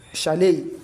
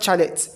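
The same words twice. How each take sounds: First: The word begins with a sh sound. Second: The word begins with a ch sound. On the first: The speaker calls it right. "C H, but they give S H sound" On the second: The speaker calls it wrong.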